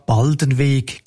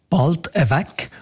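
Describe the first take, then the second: First: "Baldenweg" with the N and a long E in weg; Standard German pronunciation. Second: "bald weg" as Bald-e-weg, no N, short E; dialect pronunciation. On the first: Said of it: "Auf Standarddeutsch habe ich aber auch schon die Aussprache". («Baldenweg» uf Standarddütsch, mit N und langem E) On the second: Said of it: "auf Dialekt sagt man eher". («bald weg» uf Dialäkt, ohni N, mit churzem E) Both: Shown as a demonstration.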